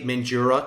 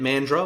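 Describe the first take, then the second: First: It is pronounced the way non-locals say it. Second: It is pronounced the way locals say it. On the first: The speaker calls it wrong. "When you say Mandurah to the locals, they don't like it" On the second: The speaker calls it right. "that's how you say it"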